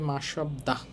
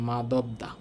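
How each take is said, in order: First: The middle consonant is an s sound. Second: The middle consonant is a d sound. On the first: "নর্মালটা" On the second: "সেই বাসিম ধরে উচ্চারণ করলে হয় মাদবদা"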